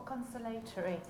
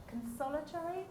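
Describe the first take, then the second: First: "consolatory" with LAY stressed, rhyming with day; alternative pronunciation. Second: "consolatory" with SOL stressed, rhyming with doll; alternative pronunciation. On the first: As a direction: stress "consolatory" on the third syllable, con-so-LAY-tory. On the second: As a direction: stress "consolatory" on the second syllable, con-SOL-a-tory. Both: Shown as a demonstration. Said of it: "not quite sure how you pronounce".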